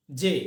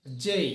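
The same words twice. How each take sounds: First: Said in the usual way. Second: জেই, said with the ay glide; modern letter name. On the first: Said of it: "not জে". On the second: Shown as a demonstration. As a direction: say জেই, not জে. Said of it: "হবে জেই". (জেই বলো, জে নয়)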